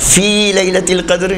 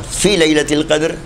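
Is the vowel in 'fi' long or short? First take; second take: long; short. First: The vowel in 'fi' is long. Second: The vowel in 'fi' is short. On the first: In the night of Qadr. The speaker calls it right. "यानी क़द्र की रात में" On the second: Be faithful to the night of Qadr. The speaker calls it wrong. "यानी शब क़द्र से वफ़ा करो"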